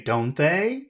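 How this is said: It sounds unsure, like asking for information. The speaker wants the listener to say what is true. The speaker calls it wrong. "that sounds like I don't know, you tell me"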